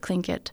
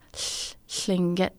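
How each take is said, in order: First: The L is an ordinary English L sound. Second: The L is hissy, with air past the tongue sides. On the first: This is the common outside pronunciation. "you can pronounce it Tlingit" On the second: This is how the people themselves pronounce it. "the way we pronounce it is Tlingit"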